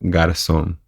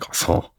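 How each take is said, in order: First: It is said with a Spanish accent. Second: It is said with a French accent. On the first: The speaker calls it right. "say it with a Uruguayan accent" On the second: The speaker calls it wrong. "it's not French, so I can't be like Garcon"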